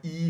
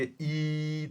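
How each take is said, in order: First: Said in the usual way. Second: ई pushed out as one long held vowel; forced ई. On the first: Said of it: "लेकिन जब बहुत ज़्यादा force करेंगे". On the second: Shown as a demonstration. Teacher showing students where the vowel forms, forced long ई. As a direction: force and stretch the ई. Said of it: "जब बहुत ज़्यादा force करेंगे".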